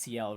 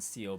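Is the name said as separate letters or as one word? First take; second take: letters; one word. First: The name is spelled out as two letters. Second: The name is said as one word. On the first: "it just feels nicer calling it C L" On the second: "that's how they pronounce it in the Cold Steel games"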